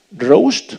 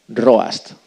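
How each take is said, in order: First: Roast said loud and high to dictate it; dictating a word. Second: Said in the usual way. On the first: Shown as a demonstration. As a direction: call out "roast" loudly so the class can write it. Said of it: "Y escribir en inglés". (dictando "roast" en voz alta) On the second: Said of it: "¿sí?".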